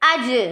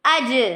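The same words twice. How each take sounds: First: The final consonant ends with an echoing bounce. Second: The same.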